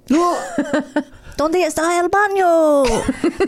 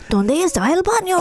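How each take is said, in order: First: The voice is plain and ordinary. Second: The voice is rough and scratchy.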